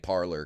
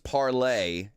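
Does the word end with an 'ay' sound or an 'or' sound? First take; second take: or; ay. First: The word ends in an 'or' sound. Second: The word ends in an 'ay' sound. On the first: This is an Americanized pronunciation. The speaker calls it wrong. "but I just say parlor because, you know, America" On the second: This is the proper French pronunciation. The speaker calls it right. "it's parlay"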